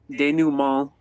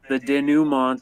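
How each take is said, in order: First: It is said with a French-style pronunciation. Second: It is said with an English-style pronunciation.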